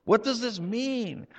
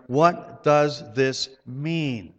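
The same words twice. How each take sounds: First: Higher, wondering question; puzzled wondering. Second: Drawn out slowly, each word weighed; what does this mean asked slowly, with stress on does; slow puzzled question. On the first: Real, not acted. Preacher asking the congregation in puzzled wonder. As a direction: ask it with genuine bafflement, stress on does. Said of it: "puzzled question repeated". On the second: Retold or imitated. Preacher reading the crowd's question, slow and puzzled. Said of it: "they asked one another".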